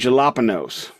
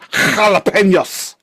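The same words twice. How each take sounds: First: The word is said with an anglicized pronunciation. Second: The word is said with a Spanish-style pronunciation. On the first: The speaker deliberately mispronounces it. The speaker calls it wrong. "The mispronunciation thing" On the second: A pedantic person corrects the pronunciation. The speaker calls it right. "actually, it's jalapenos"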